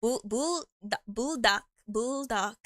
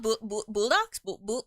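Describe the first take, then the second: First: "bulldog" broken into "bull" and "dog", piece by piece; careful sounding-out. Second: "bulldogs" stuttered out, unsure, as a question; stumbling pronunciation. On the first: Worried about mispronouncing a brand, carefully sounding out "bulldog". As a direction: try "bulldog" in separate, careful syllables. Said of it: "I always pronounce the name wrong". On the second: Unsure of a noodle brand's name, stumbling on "bulldogs". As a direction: trip over "bu-, bu-" before getting out "bulldogs". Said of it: "I always say it wrong". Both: Real, not acted.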